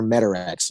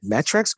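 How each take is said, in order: First: "Metarex" with an extra vowel after the t; three-syllable pronunciation. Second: "Metrex" with no vowel between t and r; two-syllable pronunciation. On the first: Guest offering the other way to say it, three-syllable "Metarex". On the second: Guest asking hosts which name is right, two-syllable "Metrex". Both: Shown as a demonstration. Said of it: "You all say it differently".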